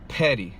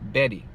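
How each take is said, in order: First: The p is released with a strong puff of air. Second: The p is released with no puff of air. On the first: "what happens when I pronounce the P sound in English" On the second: "Now what about in Spanish? ... It didn't do anything"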